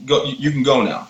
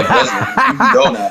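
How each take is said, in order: First: Said in the usual way. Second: Much higher and louder, laughing mock dismissal; much higher, louder mock dismissal of the resident; mock haughty dismissal. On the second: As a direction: shoo him off in a hammed-up high voice.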